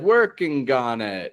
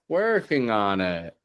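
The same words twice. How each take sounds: First: The g at the end of working is strong. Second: The g at the end of working is soft. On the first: The speaker calls it wrong. "Hearing that G a little bit strong" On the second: The speaker calls it right. "that's softer now"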